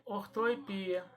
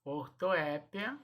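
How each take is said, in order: First: "ortoepia" said or-to-e-PI-a; stressed PI in "ortoepia". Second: "Ortoépia" said or-to-É-pia; stress on É. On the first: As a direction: slowly model "ortoepia", stressing PI. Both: Shown as a demonstration. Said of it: "eu posso falar das duas maneiras".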